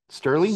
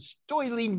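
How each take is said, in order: First: The vowel is a plain 'er' sound. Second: The vowel sounds like 'oi', New York style.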